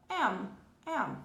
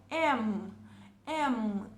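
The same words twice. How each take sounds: First: "M" nasalizado sem fechar a boca; "M" só pelo nariz, aberto; Portuguese nasal M. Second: "M" com os lábios fechando no final; "M" concluído, boca fechada; English M. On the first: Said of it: "se a gente fosse pronunciar isso aqui em português". ("M" à portuguesa, nasal) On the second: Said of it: "A gente precisa fechar a boca". ("M" em inglês, fechando a boca) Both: Shown as a demonstration.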